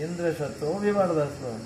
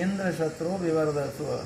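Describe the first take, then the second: No difference in how they are said.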